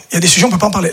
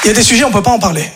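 First: Said in the usual way. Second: Quick take. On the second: Shown as a demonstration. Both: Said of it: "repeated line".

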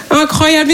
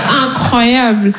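First: Said in the usual way. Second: Very slow, dragged-out "Incroyable"; drawn-out. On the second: Shown as a demonstration. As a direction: stretch "Incroyable" out slowly. ("Incroyable" étiré très lentement)

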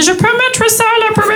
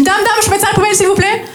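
First: Put-on French in a thick English accent; high pupil faking an English accent; mock English accent. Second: High Marseille schoolkid voice; imitating a pupil butting in; interrupting pupil. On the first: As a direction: say French words with exaggerated English vowels. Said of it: "Très, très bon accent". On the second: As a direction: pester the teacher, pitch held up high. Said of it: "j'ai un élève qui m'interrompt".

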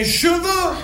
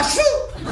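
First: Cheveux with both syllables fully sounded. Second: Cheveux squeezed into high "ch'veux"; mock the Parisian cheveux, dropping the first E; swallowed E. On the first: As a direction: stretch cheveux slowly into "che-veux". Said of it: "Il y a bien un E entre". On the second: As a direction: cheveux as one high-pitched syllable, "chfeu". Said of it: "C'est pas cheveux". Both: Shown as a demonstration.

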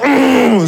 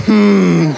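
First: Higher, strained straining hum; hard squeeze grunt. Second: Restrained little squeezing hum; a held-in grunt of moderate effort; gentler squeeze grunt. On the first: Comedian showing how he didn't squeeze, hard strained grunt. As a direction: grunt as if squeezing with all your might. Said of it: "Je l'ai pas serré genre". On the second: Comedian showing how he did squeeze the baby, contained grunt. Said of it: "je l'ai serré genre". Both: Shown as a demonstration.

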